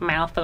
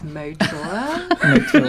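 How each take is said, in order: First: The name has an F sound, like 'mouthful'. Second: The name has a T sound, like 'Motour'. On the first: Other people say it this way. The speaker calls it wrong. "So everyone's like mouthful" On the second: This is how the owner says it. The speaker calls it right. "no, it's Motour"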